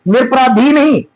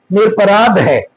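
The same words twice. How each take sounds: First: निरपराधी with a final long "dhee"; wrong form. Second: निरपराध ending on "dh", no ee; correct form. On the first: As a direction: sound the extra ee ending on निरपराधी. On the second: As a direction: close निरपराध as "nir-aparaadh". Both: Shown as a demonstration.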